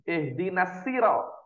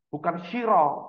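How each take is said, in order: First: The first consonant is a plain light s. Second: The first consonant is a sh sound. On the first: "Ada yang pakai sin" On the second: "tidak bisa membedakan antara shin dan sod"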